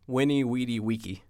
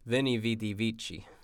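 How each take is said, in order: First: Each word starts with a w sound. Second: Each word starts with a v sound. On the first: This is the ancient classical pronunciation. "Vs were pronounced like Ws back then, and Cs were always K" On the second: This is the later church pronunciation. "How you say it in modern ecclesiastical Latin"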